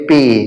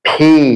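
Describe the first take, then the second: First: The p is plain, without a puff of air. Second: The p has a strong puff of air. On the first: The speaker calls it wrong. "আমরা বলি পি। It's wrong" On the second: The speaker calls it right. "It would be correctly ফি"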